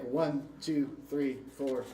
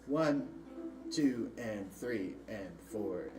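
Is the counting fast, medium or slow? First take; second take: fast; slow. First: The counting is very fast. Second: The counting is the slowest.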